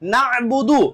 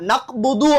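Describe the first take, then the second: First: A throaty catch comes before the b. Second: A plain k sound comes before the b. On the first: The speaker calls it right. "நஅ்புதுன்னு படிக்கவே முடியாது" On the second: The speaker calls it wrong. "அக்கனா போட்டு படிச்சோம் அப்படின்னு சொன்னா நக்புது அப்படின்னு தான் வருமே"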